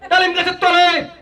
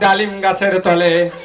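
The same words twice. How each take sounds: First: It is recited like a political speechmaker. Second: It is recited in a maulana's preaching style.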